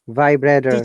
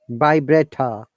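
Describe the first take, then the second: First: The final r sound is pronounced. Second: The final r sound is dropped. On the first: "But in American English" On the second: "no R sound"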